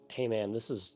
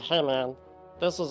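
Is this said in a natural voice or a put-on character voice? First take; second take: natural; character voice. First: It is said in the speaker's ordinary voice. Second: It is said in a put-on character voice.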